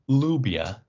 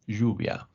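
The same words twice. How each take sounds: First: The double L is said like an L. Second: The double L is said like a Y. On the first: The speaker calls it wrong. "it's not lluvia" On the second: The speaker calls it right. "something which is more like a Y sound"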